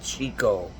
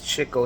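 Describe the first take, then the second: First: The first syllable does not sound like 'chick'. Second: The first syllable sounds like 'chick'. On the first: The speaker calls it wrong. "not Chico" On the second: The speaker calls it right. "because he chases the chicks"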